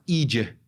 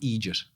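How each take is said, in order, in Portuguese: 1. O T final é totalmente apagado. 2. O T final é claramente pronunciado. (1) "em Dublin eles vão falar idiot" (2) "que eu ensinei agora"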